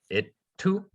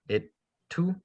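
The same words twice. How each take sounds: No difference in how they are said.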